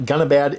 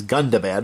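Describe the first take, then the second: First: Gunnabad with no d after the n; slurred "Gunnabad", n running straight into a; mispronounced Gunnabad. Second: Gundabad with a clear d after the n; "Gundabad", the nd fully pronounced; corrected Gundabad. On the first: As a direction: say Gunnabad, the middle d dropped. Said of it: "I've been pronouncing this wrong". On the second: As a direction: say Gundabad, sounding the middle d. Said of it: "it is not Gunnabad, it is". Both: Shown as a demonstration.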